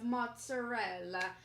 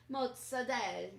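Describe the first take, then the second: First: Said in the usual way. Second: "mozzarella" as "motsa-DELL", final vowel dropped; Jersey Italian pronunciation. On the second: Shown as a demonstration. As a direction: say "mozzarella" Jersey-style, ending on a stressed "dell". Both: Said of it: "Jersey Italian pronunciations of mozzarella".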